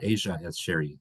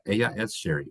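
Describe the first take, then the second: First: The double L is said as a zh sound. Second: The double L is said as a y sound. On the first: "kind of an Asia, which is the way they pronounce it in some countries" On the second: "if you have two L's, it makes the y sound"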